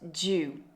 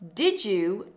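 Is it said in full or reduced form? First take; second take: reduced; full. First: The words run together into one reduced word. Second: Both words are said fully and separately.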